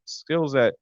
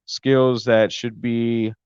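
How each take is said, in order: First: Said in the usual way. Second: Skills said slowly and stressed; slow emphasis. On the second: Real, not acted. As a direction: drag out Skills that should be.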